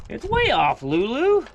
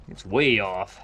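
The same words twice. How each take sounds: First: Much higher, louder sing-song pet talk; doting high voice for the dog. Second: Said in the usual way. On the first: Real, not acted. Talking to his dog Lulu.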